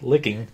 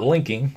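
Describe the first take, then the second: First: The middle has no n sound before k. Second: The middle has an n sound before k. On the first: The speaker calls it right. "I said it right" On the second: The speaker calls it wrong. "not linking"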